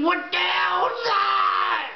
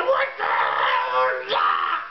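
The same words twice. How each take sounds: First: Much higher, slow, shouted disbelief; a shocked, high shout of alarm. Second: Much lower, slow, shouted disbelief; a deep, shouted cry of alarm; shocked shout. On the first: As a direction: yell it out at the strange device. Shocked at the alien device. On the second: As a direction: bellow it out in alarm at the spikes. Shocked again at the spikes. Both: Retold or imitated.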